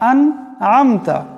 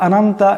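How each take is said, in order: First: It is careful with both throat sounds distinct. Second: It is rushed with the throat sounds blurred. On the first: The speaker calls it right. "প্রথমটা হলো হামজা, পরেরটি হলো আইন" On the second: The speaker calls it wrong. "অল্প জলদাজলদি করি"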